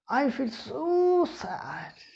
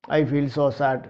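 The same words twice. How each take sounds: First: It is said with strong feeling and lively pitch. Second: It is said flatly with no strong feeling. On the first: The speaker calls it right. "The tone should be there" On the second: The speaker calls it wrong. "Is there any exclamation? No"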